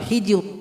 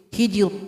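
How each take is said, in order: No difference in how they are said.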